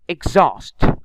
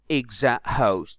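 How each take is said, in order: First: The H is not pronounced. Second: The H is pronounced aloud. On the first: The speaker calls it right. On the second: The speaker calls it wrong.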